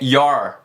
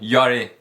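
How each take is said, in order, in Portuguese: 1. A palavra termina com som de R. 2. A palavra termina com uma vogal acrescentada. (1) "é your, your, som de R no final" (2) "não é yori ou yore"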